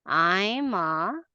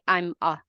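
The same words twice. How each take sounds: First: "I'm a" drawn out, each word held long; stretched words. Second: "I'm a" short and low, run together; unstretched words. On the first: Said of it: "you need to stretch the words". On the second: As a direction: clip "I'm a" without stretching. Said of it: "you don't say". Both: Shown as a demonstration.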